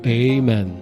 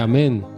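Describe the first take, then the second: First: It is said in an American style. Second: It is said in the older Aramaic style. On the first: "se tornou Amen" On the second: "esse Amém foi para os Estados Unidos da América"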